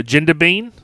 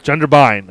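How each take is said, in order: First: "Jindabyne" ending like "bean" or "bane", rising as a question; unsure mispronunciation. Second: "Jindabyne" ending like "bine", falling as a statement; corrected pronunciation. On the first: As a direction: attempt "Jindabyne" unsurely, last syllable wrong as "-bane", voice lifting. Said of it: "I can't say it". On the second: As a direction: repeat "Jindabyne" carefully corrected, rhyming the end with "line". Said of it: "I wanna make sure I get". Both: Real, not acted.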